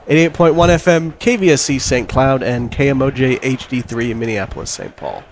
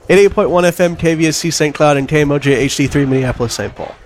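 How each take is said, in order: First: It is said at a normal pace. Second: It is said faster than normal.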